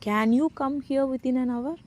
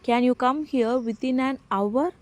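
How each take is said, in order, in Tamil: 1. Stress 'can' வார்த்தையில் இருக்கு. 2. Stress 'within an hour' மேல இருக்கு. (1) "முடியுமாங்கிறத நம்ம ஸ்ட்ரெஸ் பண்ணி கேட்குறோம்" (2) "அந்த டைமை நம்ம கேட்குறோம் ஸ்ட்ரெஸ் பண்ணி"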